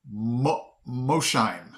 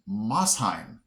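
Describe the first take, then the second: First: Mosheim said MOH-shyme; long O and a SH in Mosheim; guessed pronunciation. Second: Mosheim said MOSS-hyme; real pronunciation. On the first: His guess at a Tennessee city, Mosheim as MOH-shyme. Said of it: "I would have pronounced this". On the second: Teaching the real city name, Mosheim as MOSS-hyme. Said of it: "it's really pronounced". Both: Shown as a demonstration.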